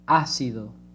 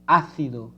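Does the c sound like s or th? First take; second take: s; th. First: The c sounds like s in sun. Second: The c sounds like th in thin. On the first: This is how it is said in the Americas. "And the other countries, it would be ácido" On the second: This is how it is said in Spain. "Also in Spain"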